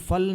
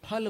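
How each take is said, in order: First: The first sound uses upper teeth on lower lip. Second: The first sound is made with both lips together. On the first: The speaker calls it wrong. "ऊपर के दांत और नीचे के होठ, लेकिन ऐसा उच्चारण नहीं करना है" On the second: The speaker calls it right. "दोनों होठ मिला करके फल"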